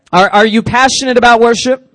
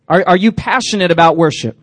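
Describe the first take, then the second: First: Louder repeat. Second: Said in the usual way. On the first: Real, not acted. Pastor repeating his question louder to the crowd.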